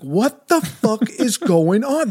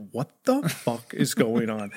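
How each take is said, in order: First: High, drawn-out mock outrage; exasperated outrage. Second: Low, slow, hushed disbelief; stunned disbelief. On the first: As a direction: stretch it out high in exasperated disbelief. Outraged after second refusal. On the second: Retold or imitated. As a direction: draw it out low, slowly taking in the outrage. Baffled by teacher's refusal.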